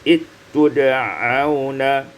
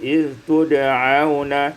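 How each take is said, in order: First: The dh sound merges into a doubled t. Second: The dh sound is kept before the t.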